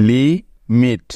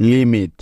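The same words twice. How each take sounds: First: "লি", pause, "মিট"; split into syllables. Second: Said in the usual way. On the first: Shown as a demonstration. Teacher showing learners the two syllables of a word, "লি ... মিট" split by a pause. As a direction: break it into two separate beats, "লি ... মিট". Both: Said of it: "একবার ভেঙে বলতে হচ্ছে".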